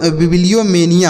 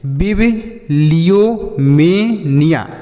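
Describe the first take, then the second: First: Said in the usual way. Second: बिबिलियोमेनिया very slowly, "bib, liyo, me, niya"; slow syllable-by-syllable demo. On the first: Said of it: "तो हो गया". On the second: Shown as a demonstration. Teacher showing children how to read it, बिबिलियोमेनिया slow in separate chunks. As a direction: break बिबिलियोमेनिया into drawn-out parts with pauses. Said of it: "ऐसे पढ़ेंगे".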